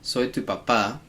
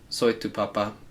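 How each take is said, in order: First: The stress is on the last syllable. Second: The stress is on the first syllable. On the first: I'm your dad. The speaker calls it right. "means I'm your dad" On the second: I'm your potato. The speaker calls it wrong. "means I'm your potato"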